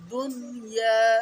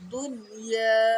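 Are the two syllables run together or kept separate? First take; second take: separate; separate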